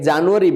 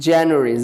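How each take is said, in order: First: The first syllable has a plain 'ja' sound. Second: The first syllable has a fronted 'jya' sound. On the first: The speaker calls it wrong. "আমরা এটাকে আগে জানুয়ারি বলতাম" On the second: The speaker calls it right. "But correctly, you have to pronounce January. জাটাকে আপনি একটু জ্যা বলবেন"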